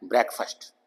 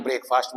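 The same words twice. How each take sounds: First: ब्रेकफास्ट with a short e, like brek-fəst; correct pronunciation. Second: ब्रेकफास्ट said the common wrong way, brake-fast; wrong pronunciation. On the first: Teacher models ब्रेकफास्ट as brek-fəst for students. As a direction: say ब्रेकफास्ट as brek, then a weak schwa. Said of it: "actual इसकी pronunciation क्या है?". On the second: Teacher imitates the pupils' wrong ब्रेकफास्ट. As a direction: mistaken ब्रेकफास्ट with a long ay. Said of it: "तो जो कि गलत है". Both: Shown as a demonstration.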